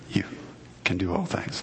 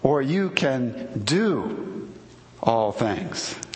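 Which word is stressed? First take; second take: You; do. First: The stress is on the word you. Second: The stress is on the word do.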